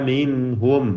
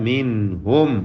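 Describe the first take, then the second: No difference in how they are said.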